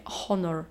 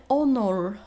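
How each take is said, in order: First: Honor with a Polish h, "khonor"; honor, h pronounced. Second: Honor said "onor"; honor, English "onor"; silent h. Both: Shown as a demonstration. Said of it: "a nie nasze polskie honor".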